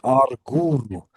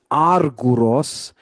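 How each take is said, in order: First: "arguru" with the accent pulled onto "gu"; accent dragged rightward. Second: "arguros" with the accent up front on "ar"; accent on first syllable. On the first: Teacher showing student the genitive, "arguru" stressed on its middle syllable. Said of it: "drag the accent". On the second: Teacher showing student the nominative, "arguros" stressed on its first syllable. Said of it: "the accent in the nominative". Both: Shown as a demonstration.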